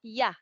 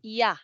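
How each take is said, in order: First: It begins with a y sound. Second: The same.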